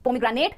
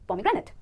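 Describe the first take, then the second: First: The last syllable sounds like 'nate'. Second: The last syllable sounds like 'nit'. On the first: The speaker calls it wrong. "नहीं" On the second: The speaker calls it right. "it कहेंगे"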